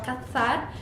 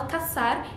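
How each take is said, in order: First: The middle consonant sounds like English th. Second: The middle consonant sounds like an s. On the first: This is how it is said in Spain. "em espanhol da Espanha se fala cazar, como com som de T H no inglês" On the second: This is how it is said in Latin America.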